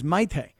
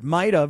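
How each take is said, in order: First: The name ends in an 'eh' sound. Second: The name ends in an 'ah' sound. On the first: The speaker calls it right. "It's Maite" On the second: The speaker calls it wrong. "it's not Maita"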